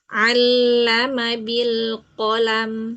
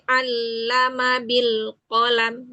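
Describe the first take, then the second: First: The words are recited lightly and smoothly. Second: The words are recited with forceful, jerky pushes. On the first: The speaker calls it right. "ringan ya" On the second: The speaker calls it wrong. "jangan ada hentakan-hentakan"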